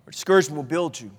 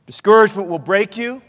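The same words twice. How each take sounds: First: Low, soft, quick answer; hushed counterpoint. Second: Measured, suspended line on "break"; weighty warning. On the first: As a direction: drop right down for the hopeful alternative. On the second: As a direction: set up "break" as the first half of a contrast. Antithesis set against hushed answer. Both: Real, not acted.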